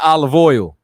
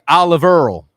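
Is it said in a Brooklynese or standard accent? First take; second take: standard; Brooklynese. First: Oil sounds like standard oil. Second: Oil sounds like earl, Brooklynese style.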